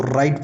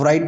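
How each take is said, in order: First: "राइट" starting straight on R; silent W. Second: "राइट" with a W sounded before R, v-rite; W pronounced. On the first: Teacher giving the correct reading, "राइट" with W silent. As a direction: drop the W, say "राइट" as rite. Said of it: "इसको राइट पढ़ते हैं". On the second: Teacher showing what not to say, "राइट" with W sounded. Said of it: "वो राइट नहीं पढ़ते". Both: Shown as a demonstration.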